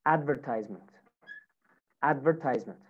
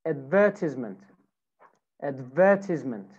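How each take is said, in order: First: American "advertisement", AD-ver-tize-ment; American pronunciation. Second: British "advertisement", ad-VER-tis-ment; British pronunciation. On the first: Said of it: "American accent". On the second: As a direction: stress VER in "advertisement", short i after it. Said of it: "British accent". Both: Shown as a demonstration.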